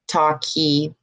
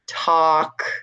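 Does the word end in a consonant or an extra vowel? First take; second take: extra vowel; consonant. First: The word ends with an added vowel sound. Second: The word ends sharply on the k sound. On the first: The speaker calls it wrong. "extra vowel sounds in the end of words" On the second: The speaker calls it right. "it ends a lot before the vowel"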